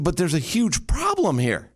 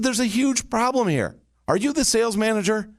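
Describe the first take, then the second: First: Said in the usual way. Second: Much higher, pressing and urgent; urgent insistent shift. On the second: Retold or imitated. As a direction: sound like it can't wait a second. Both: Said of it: "This is the shift".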